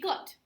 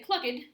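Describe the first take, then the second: First: The word is said with one syllable. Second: The word is said with two syllables. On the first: The speaker calls it right. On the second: The speaker calls it wrong.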